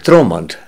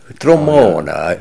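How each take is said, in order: First: The name ends on the consonant sound. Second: The name ends with an added vowel sound.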